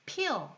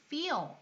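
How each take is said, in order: First: It begins with a p sound, lips closed. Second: It begins with an f sound, teeth on lip. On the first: The speaker calls it wrong. "feel 이게 아니라" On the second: The speaker calls it right. "feel 이렇게 발음했죠"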